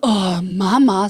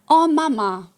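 First: It sounds annoyed and exasperated. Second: It sounds warm and admiring. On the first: The children are fed up with their mother. The speaker calls it wrong. "wir haben einfach nicht so" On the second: The children look up to their mother. The speaker calls it right.

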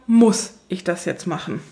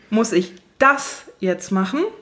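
First: The stress is on "muss". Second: The stress is on "das".

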